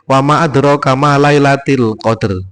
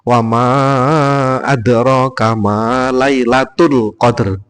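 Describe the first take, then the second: First: The word lailat ends with an i vowel. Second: The word lailat ends with a u vowel. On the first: The speaker calls it wrong. "Tidak boleh" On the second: The speaker calls it right. "Harusnya wa ma adraka ma lailatul"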